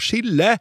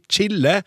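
First: It begins with a sh sound as in sjokolade. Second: It begins with a ch sound as in child. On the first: The speaker calls it wrong. "med samme SJ-uttalelse som i sjokolade" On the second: The speaker calls it right. "«ch-lyden», «ch», som blir brukt i det engelske ordet «child»"

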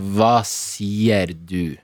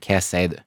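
First: It is said in standard Eastern Norwegian pronunciation. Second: It is said in the speaker's home regional dialect. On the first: "nå tar vi den på bokmål i riksdialekt først" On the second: "Det jeg ville ha sagt med min dialekt er"

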